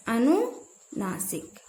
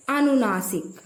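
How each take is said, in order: First: अनुनासिक drawn out, split after अनु; slow, broken-up repetition. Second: Said in the usual way. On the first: Shown as a demonstration. Teacher repeats the term अनुनासिक for students, slow and split. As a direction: say अनुनासिक very slowly in two parts, falling softly.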